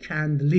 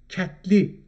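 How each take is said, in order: First: It is said as kendli, with a clear nd. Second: It is said as ketli, without the nd sound. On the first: This is the literary form. "اگه بخوایم ادبی صحبت بکنیم میگیم کندلی" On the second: This is the everyday spoken form. "در شفاهی میگیم"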